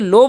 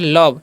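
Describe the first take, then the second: First: The vowel sounds like 'oh'. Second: The vowel sounds like 'uh'. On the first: The speaker calls it wrong. "इसे लोभ नहीं पढ़ना है।" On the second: The speaker calls it right. "इसे पढ़ते हैं लव।"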